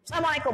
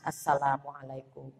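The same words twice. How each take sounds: First: It is said in a loud, high, angry voice. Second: It is said in a soft, calm voice. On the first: The prayer of love does not get across. The speaker calls it wrong. "Bayangkan kalau nadanya tinggi" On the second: The prayer of love gets across. The speaker calls it right. "Cooling down ibu"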